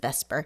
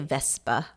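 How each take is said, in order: First: The final r is pronounced. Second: The final r is dropped, British-style.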